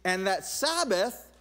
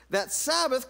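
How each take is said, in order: First: Said in the usual way. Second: Sabbath said higher and louder; emphatic Sabbath; stress on Sabbath. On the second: Real, not acted. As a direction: punch that Sabbath. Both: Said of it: "repeated phrase".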